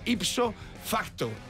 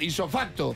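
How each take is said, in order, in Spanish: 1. La p antes de la s se pronuncia. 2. La p antes de la s se omite. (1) "pero es ipso facto" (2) "Isofacto lo decimos así"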